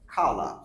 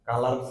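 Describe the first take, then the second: First: The first k sound has a puff of air. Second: The first k sound has no puff of air. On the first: The speaker calls it right. "হচ্ছে খালা" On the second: The speaker calls it wrong. "আমরা বলতাম কালার, কালার sound হবে না"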